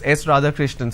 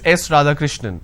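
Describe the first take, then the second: First: The voice rises at the end like a question. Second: The voice falls at the end like a statement. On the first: The speaker is unsure and asking. "it comes as a question" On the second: The speaker is stating the answer. "the answer is"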